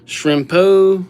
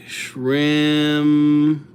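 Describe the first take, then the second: First: Said in the usual way. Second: Drawn-out name. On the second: Real, not acted. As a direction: stretch out Shrimpo in two long, held syllables. Stretching name while writing it.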